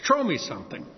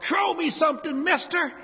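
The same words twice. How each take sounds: First: Said in the usual way. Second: Imitating a Mardi Gras crowd yell. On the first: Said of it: "I grew up yelling that till I was hoarse". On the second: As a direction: yell it up at the float, much higher. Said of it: "everybody in the crowd yells out".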